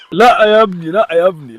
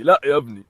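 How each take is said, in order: First: Firm no. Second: Said in the usual way. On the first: Real, not acted. Owner warning his dog off, a firm louder no. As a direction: stop him sharply.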